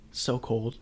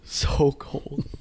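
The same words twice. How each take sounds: First: Said in the usual way. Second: Breathy whisper with a laugh. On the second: Real, not acted.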